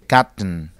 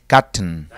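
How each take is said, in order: No difference in how they are said.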